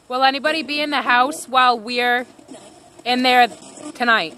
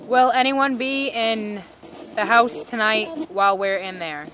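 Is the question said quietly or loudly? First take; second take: loudly; quietly. First: It is said loudly. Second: It is said quietly.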